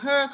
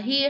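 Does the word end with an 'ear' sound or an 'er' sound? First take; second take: er; ear. First: The vowel is a short 'er' sound. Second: The vowel is an 'ear' sound. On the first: The speaker calls it right. "đọc là her" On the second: The speaker calls it wrong. "không đọc là here"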